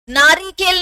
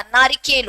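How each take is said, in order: First: नारिकेल with a long ee after the r, naa-ree-kel; wrong long vowel. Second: नारिकेल with a short i after the r, naa-ri-kel; correct short vowel. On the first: (नारिकेल में 'रि' को लंबा 'री' बोलें) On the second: (नारिकेल में छोटी इ के साथ 'रि' बोलें) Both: Shown as a demonstration. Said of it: "छोटे ई की मात्रा लगती है".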